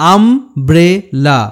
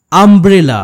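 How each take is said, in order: First: "umbrella" very slowly in three pieces, আম, ব্রে, লা; slow sounding-out of "umbrella" with pauses; split into syllables. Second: Said in the usual way. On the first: Shown as a demonstration. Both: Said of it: "তিনটি সিলেবেলে ভাঙতে হয়".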